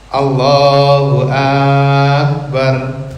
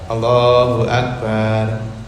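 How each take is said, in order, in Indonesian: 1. Vokal pertama dalam Akbar dipanjangkan. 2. Vokal setelah b dalam Akbar dipanjangkan. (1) "akbar itu menjadi dipanjangkan" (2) "ba dipanjangkan"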